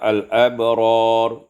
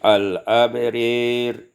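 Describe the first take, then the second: First: The long vowel is a clear open a. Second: The long vowel leans toward e.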